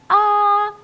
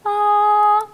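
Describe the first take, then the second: First: The voice starts with a hard glottal attack. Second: The voice starts softly, without a hard onset.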